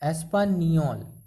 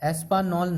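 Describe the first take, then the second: First: The last syllable starts with a ny sound. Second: The last syllable starts with a plain n sound. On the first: The speaker calls it right. "यहाँ पे नी का उच्चारण करना है" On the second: The speaker calls it wrong. "नॉल नहीं बोलना है"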